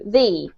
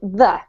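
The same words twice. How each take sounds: First: The vowel is long and tense, like 'thee'. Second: The vowel is short and reduced, like 'thuh'. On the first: The next word starts with a vowel. "if it comes before a vowel, we change the pronunciation to the" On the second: The next word starts with a consonant. "if it comes before a consonant word such as fashion, um, we pronounce it the"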